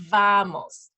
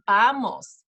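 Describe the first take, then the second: First: "vamos" with a hard, buzzed V; hard English V. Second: "vamos" begun with a B, like "bamos". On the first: Teacher showing parents the wrong way, hard V. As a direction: top teeth on lower lip to start "vamos". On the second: Teacher picking the Spanish way, B-like V. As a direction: lips together to start "vamos", drawn out. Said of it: "it's more like a B than a V". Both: Shown as a demonstration.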